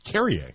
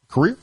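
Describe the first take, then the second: First: It sounds like carrier, stress on the first syllable. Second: It sounds like career, stress on the second syllable. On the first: The speaker calls it right. "I think I pronounced it wrong the entire time" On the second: The speaker calls it wrong. "I got that wrong"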